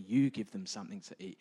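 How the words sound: It is said gently and softly. It is a kind suggestion. "He maybe has said it a little bit nicer"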